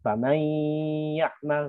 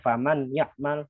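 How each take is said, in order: First: The n merges nasally into the following y. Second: The n is pronounced clearly without merging. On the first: The speaker calls it right. "nun ketemunya dibaca idgham kan" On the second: The speaker calls it wrong. "tapi dibaca ... salah"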